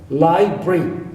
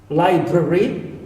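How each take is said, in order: Both takes have the same delivery.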